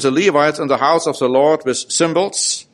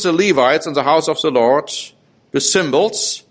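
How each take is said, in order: First: It is read quickly without special emphasis. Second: It is read slowly with deliberate emphasis. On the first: "I read that quickly" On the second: "I want to read it again to emphasize what's being said here"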